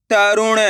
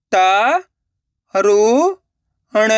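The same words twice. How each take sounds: First: Said in the usual way. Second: त, रु, ण split into single sounds; syllable by syllable. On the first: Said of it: "तो मिलके बन जाएगा". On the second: Shown as a demonstration. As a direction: sound out त, रु, ण with pauses. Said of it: "एक एक अक्षर का उच्चारण करके". (त, रु, ण एक-एक अक्षर रुक-रुक कर)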